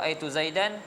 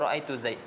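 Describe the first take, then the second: First: The name ends with an added -an sound. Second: The name stops on the bare final consonant. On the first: This is the usual form with the ending kept. "Kalau ra'aitu Zaidan" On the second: This is one tribe's dialect dropping the ending at a pause. "dia sebut ra'aitu Zaid"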